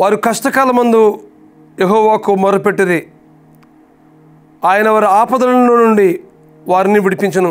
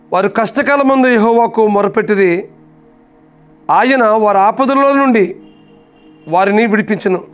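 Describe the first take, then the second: No difference in how they are said.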